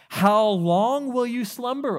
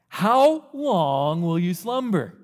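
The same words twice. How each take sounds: First: It is read in a plain tone. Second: It is said in a sarcastic tone.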